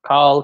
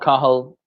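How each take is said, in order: First: The name is said quickly and shortened. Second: The name is said slowly and in full.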